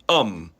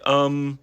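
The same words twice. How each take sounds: First: The pitch is not held high and level. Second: The pitch is held high and level. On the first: "you wouldn't normally say um" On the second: "Hear how the voice is high and flat"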